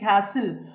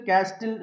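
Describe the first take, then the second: First: The t sound is not pronounced. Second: A t sound is pronounced in the middle. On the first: The speaker calls it right. "టీ silent" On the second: The speaker calls it wrong. "ఇలా చదవకూడదు"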